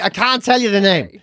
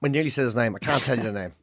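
First: "I can't tell you the name" slowed and spelled out; emphatic repeat. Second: Low, soft aside to oneself; hushed aside. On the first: Repeats it firmly to the listener. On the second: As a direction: drop low and quiet, catching yourself. Aside after nearly saying name. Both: Real, not acted.

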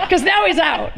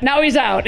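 First: Said through real laughter, pitched up; laughing. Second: Said in the usual way. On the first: Real, not acted. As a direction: laugh while admitting the mistake. Laughing at her own blunder.

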